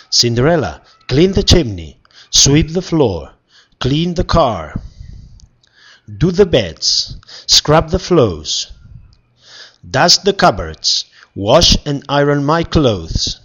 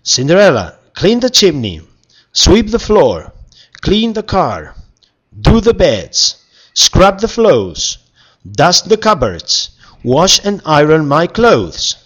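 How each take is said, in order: First: Wicked stepmother. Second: High, loud demanding list; bossy orders. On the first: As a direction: boss her around like a stepmother. Stepmother ordering Cinderella around. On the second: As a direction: order her around, louder each time. Prince now ordering her around. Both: Acted.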